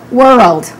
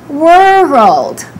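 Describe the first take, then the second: First: The word is said quickly in one smooth go. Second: The word is drawn out slowly in parts. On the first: "Now let's say it naturally" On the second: "I'll say it slowly again"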